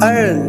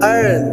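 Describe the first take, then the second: Both takes have the same delivery.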